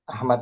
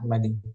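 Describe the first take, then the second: First: The name ends on the consonant d. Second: The name ends with a final i vowel. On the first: The speaker calls it right. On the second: The speaker calls it wrong.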